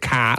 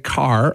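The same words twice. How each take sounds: First: The final r is dropped, Boston style. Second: The final r is pronounced, American style.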